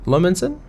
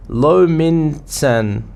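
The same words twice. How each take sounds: First: "Lominsan?" asked with a rising tune; questioning pronunciation. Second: Lominsan drawn out very slowly; sounding it out. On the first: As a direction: try "Lominsan?" as an unsure question. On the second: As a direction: stretch out "Lominsan" syllable by syllable. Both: Shown as a demonstration.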